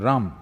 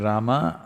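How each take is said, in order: First: The name ends without its final vowel. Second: The name ends with its final vowel sounded. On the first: "they'll say Ram. ... the habit of cutting off the last syllable" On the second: "If you say Rama"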